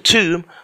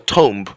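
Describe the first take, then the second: First: The final B is silent. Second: The final B is pronounced. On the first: The speaker calls it right. "the B in the tomb is very silent. You don't pronounce it" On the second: The speaker calls it wrong. "not a tomb"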